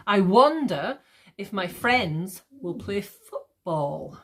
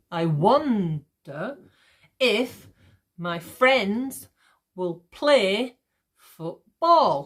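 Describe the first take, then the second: First: Slow, leaning on "wonder", "friends" and "football"; gentle beat through "wonder", "friends", "play"; light iambic stress. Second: Very slow, in pieces, punching "WON-der", "FRIENDS", "PLAY", "BALL"; exaggerated iambic stress. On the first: Teacher giving an example line, lightly marked iambic stress. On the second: Teacher breaking the example down for students, exaggerated iambic stress. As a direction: stretch and hit "wonder", "friends", "play", end of "football". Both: Shown as a demonstration. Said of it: "I'm obviously exaggerating this".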